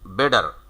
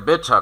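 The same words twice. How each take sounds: First: It is said in an American accent, with r. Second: It is said in a British accent, no r.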